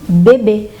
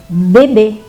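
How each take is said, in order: No difference in how they are said.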